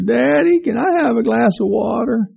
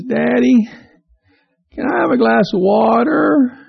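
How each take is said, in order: First: Put-on much higher, drawn-out small-boy plea; a child asking again hopefully; little boy calling again from bed. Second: Put-on higher, slow small-boy asking; a child asking sweetly from bed; little boy calling to his dad from bed. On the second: Little boy voiced in story.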